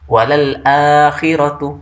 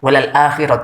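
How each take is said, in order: First: The vowel after lal is held long. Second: The vowel after lal is short. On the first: The speaker calls it right. "Harus dibaca panjang dua harkat" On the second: The speaker calls it wrong. "bisa pendek"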